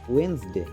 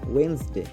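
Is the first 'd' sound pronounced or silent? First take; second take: silent; silent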